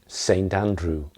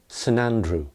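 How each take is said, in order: First: The word saint is pronounced in full. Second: The word saint is reduced to a weak syllable. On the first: "That's the full uh, pronunciation" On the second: "But you will hear people talk of Saint Andrew"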